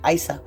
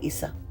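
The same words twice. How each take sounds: First: It begins with a sound like 'ice'. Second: It does not begin like 'ice'. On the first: It links the rune to ice. "you could see this as ice. That's why I say Isa" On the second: It is the name's true form. "but it's really Isa"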